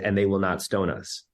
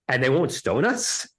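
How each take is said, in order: First: It is said flatly, as a plain statement. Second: It is said as an astonished question.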